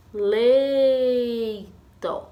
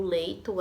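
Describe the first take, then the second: First: Leito very slowly, LEI held long, then a short TO; stress on LEI. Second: Said in the usual way. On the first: Shown as a demonstration. Teacher asking children to spot the strong syllable, long LEI in leito. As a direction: stretch LEI right out in leito. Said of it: "sílaba que a tia mais falou". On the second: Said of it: "a sílaba tônica do leito".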